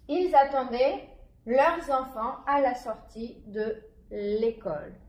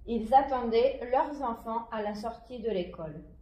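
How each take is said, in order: First: The sentence is read at a slower pace. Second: The sentence is read at a faster pace.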